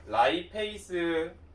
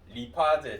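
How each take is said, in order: First: It starts with 'lai' and ends in 'seu'. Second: It starts with 'ri' and ends in 'je'. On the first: This is the newer way of saying it. "얘가 라이페이스고" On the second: This is the older way of saying it. "얘가 리파제야"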